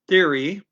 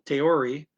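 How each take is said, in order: First: It begins with a soft TH sound. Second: It begins with a hard T sound.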